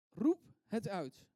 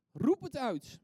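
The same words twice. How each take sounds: First: "Roep" punched loud, pause, then "het uit"; slow, spaced "Roep... het uit", loud on "Roep"; emphatic, word by word. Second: Loud, high rallying cry; emphatic call. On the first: Preacher repeats his second principle, slow "Roep het uit" word by word. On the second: Preacher urges the congregation to cry out, loud emphatic call. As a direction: call it out in one loud burst. Preacher calls out his principle. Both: Shown as a demonstration.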